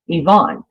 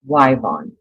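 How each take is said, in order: First: The name begins with a vowel sound. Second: The name begins with a W sound.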